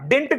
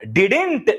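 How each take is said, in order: First: The word is said as one short syllable. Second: The word is said with two syllables. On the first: The speaker calls it wrong. "డింట్ కాదు" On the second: The speaker calls it right. "డిడింట్ అని పలకాలి"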